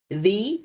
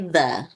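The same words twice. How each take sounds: First: The vowel is a long ee sound. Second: The vowel is a short uh sound. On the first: It follows the long vowel rule. "It would maybe be he, the, and some of them people say that" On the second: It is how people normally speak. "when we speak, we say the"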